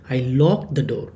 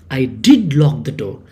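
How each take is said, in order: First: Said in the usual way. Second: Did in I did lock the door said firmly; stress on did. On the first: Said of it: "that's just general, okay, normally". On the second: Shown as a demonstration. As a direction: push down on did, insisting. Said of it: "you are stressing on that".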